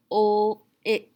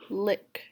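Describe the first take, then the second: First: LICK split into "ul" and "ick"; sounds separated. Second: Said in the usual way. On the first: Shown as a demonstration. Teacher splitting lick for a student to blend, sounds separated. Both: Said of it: "What word is it?".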